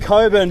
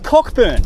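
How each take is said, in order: First: The k sound in the middle is silent. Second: The k sound in the middle is clearly heard. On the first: This is how most people say it. The speaker calls it wrong. "everyone seems to think it's called Coburn" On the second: This follows how the name is spelled. The speaker calls it right. "it puts emphasis on k. So it's Cockburn"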